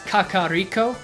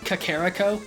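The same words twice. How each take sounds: First: The name is said with a Japanese-sounding pronunciation. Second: The name is said with an American-sounding pronunciation. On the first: The speaker calls it right. "that sounds very Japanese" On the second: The speaker calls it wrong. "which sounds very American"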